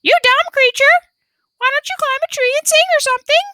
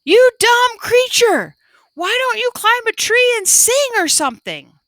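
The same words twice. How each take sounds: First: Very high, loud squawking yell; parrot shout. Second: High, loud angry yell; loud shout. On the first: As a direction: shout it back fast like a parrot. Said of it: "shouted just as loudly". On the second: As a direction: shout at the bird in frustration. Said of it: "Mingling loudly shouted". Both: A narrator's reading.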